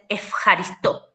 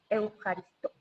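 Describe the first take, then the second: First: The word begins with an 'ef' sound. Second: The word begins with an 'eu' sound. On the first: This is the modern pronunciation. "En griego moderno, esa eu no se pronuncia eu, sino que se pronuncia ef" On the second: This is the ancient pronunciation. "Así te decía un griego"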